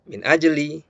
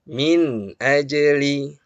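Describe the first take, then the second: First: The nun sound is rushed and nearly lost. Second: The nun sound is clear and not held. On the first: The speaker calls it wrong. "jangan juga terlalu cepat" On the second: The speaker calls it right. "Harus jelas terdengar, tetapi jangan juga ditahan lama"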